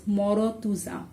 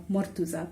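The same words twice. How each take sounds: First: "morotuza" in four syllables, with o after the r; open R pronunciation. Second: "mortuza" in three syllables, r straight into t; closed R pronunciation. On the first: Teacher showing a possible misreading, "morotuza" with extra o. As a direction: say "morotuza", sounding the built-in o after r. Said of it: "I can pronounce it as". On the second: Teacher giving the intended name, "mortuza" with closed r. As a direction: say "mortuza" with no vowel after r. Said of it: "instead of mortuza". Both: Shown as a demonstration.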